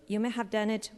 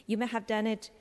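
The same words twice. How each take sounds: The two takes are said the same way.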